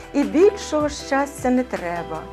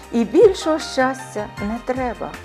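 Both takes have the same delivery.

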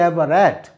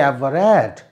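The two takes are said the same way.

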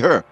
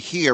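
First: The word is pronounced with an 'er' vowel. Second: The word is pronounced with a clear 'ear' vowel. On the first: "we say her" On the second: "you don't say here"

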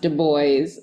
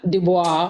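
First: The second part sounds like 'boys'. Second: The second part does not sound like 'boys'. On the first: The speaker calls it right. "name is pronounced Du Bois" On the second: The speaker calls it wrong. "not Du Bois"

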